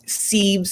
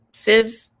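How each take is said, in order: First: "sieves" with a long ee, like "seeves"; long-vowel pronunciation. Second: "sieves" with a short i, like "sivs"; short-vowel pronunciation. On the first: Unsure of the kitchen word, trying "sieves" with a long ee. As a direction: say "sieves" to rhyme with "leaves". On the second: Correcting the kitchen word, "sieves" with a short i. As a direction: say "sieves" to rhyme with "gives". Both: Real, not acted. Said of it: "what's the word?".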